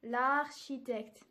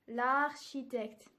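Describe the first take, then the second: First: The article's vowel is dropped before the noun. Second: The article's vowel is dropped before the noun.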